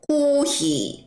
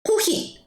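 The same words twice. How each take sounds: First: The vowels are drawn out long. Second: The vowels are short and clipped. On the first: The speaker calls it right. "꼭 늘려주세요" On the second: The speaker calls it wrong. "호히 하시면 안 되고"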